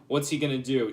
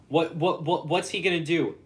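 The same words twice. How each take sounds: First: Said in the usual way. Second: Higher, louder, worked-up question; excited. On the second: Real, not acted. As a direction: fire it off, getting worked up.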